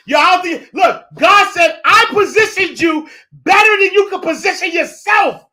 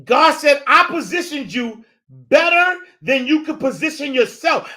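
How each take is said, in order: First: Soaring, shouted God quote; booming, high-pitched declaration of God's words; loud preaching. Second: Preaching repeat. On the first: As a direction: belt it out like a preacher at full force. Preacher erupts quoting God. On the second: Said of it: "repeats the quote, less heated". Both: Acted.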